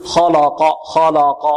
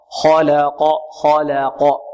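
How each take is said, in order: First: خلق with the la darkened like law; heavy lam mistake. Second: خلق with a light la between heavy kh and q; correct thin lam. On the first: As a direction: demonstrate خلق wrongly, all three syllables heavy. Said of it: "نحذر من تفخيم". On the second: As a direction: model خلق slowly, the middle syllable thin. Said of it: "خطأ". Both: Shown as a demonstration.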